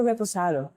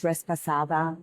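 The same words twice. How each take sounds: First: Reposado said re-po-SA-do, Spanish style, no S sound; correct reposado. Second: Respasada with an added S, res-pa-SA-da; customer's wrong version. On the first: Shown as a demonstration. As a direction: say reposado cleanly as re-po-sa-do with no S before the P. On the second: Retold or imitated. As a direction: mimic the customer saying Respasada with an S after the re. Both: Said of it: "There's not an S in there".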